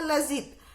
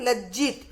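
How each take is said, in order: First: The j sound is single and short. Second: The j sound is doubled and held. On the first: The speaker calls it wrong. "इसको उच्चारण होगा लजीत" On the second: The speaker calls it right. "जो आधा ज है"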